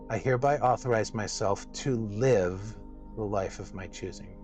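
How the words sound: The word "to" is stressed.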